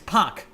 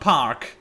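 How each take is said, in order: First: The name is said without an R sound. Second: The name is said with an R sound. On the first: The speaker calls it right. "There is no R in there" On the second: The speaker calls it wrong. "not Park"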